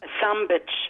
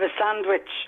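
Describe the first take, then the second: First: The word is said in a broad Dublin way. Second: The word is said in a standard way. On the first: "And I'll make it a sandwich" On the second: "Instead of a sandwich"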